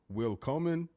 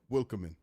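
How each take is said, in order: First: The name is said slowly with two separate words. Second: The name is said quickly with the words run together. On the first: "Is it Will Coleman" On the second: "or do you say it faster?"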